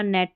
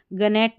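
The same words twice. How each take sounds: First: नेट with a silent G; correct pronunciation. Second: गनेट with the G sounded first; wrong pronunciation. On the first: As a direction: say नेट, starting straight on N. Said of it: "नेट पढ़ना है". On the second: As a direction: say गनेट starting on a hard G. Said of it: "गनेट नहीं पढ़ना". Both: Shown as a demonstration.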